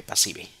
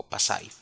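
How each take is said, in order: First: "pasive" read as in Spanish, pa-SEE-beh; Spanish-style pronunciation. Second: "passive" said roughly as pa-SIGH; attempted English pronunciation. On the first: Teacher naming an English menu option, Spanish-style pronunciation. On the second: Teacher offering another try at the English term, anglicised pronunciation. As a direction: try "passive" in English, second vowel like "eye". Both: Real, not acted. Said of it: "Mi inglés no es muy bueno".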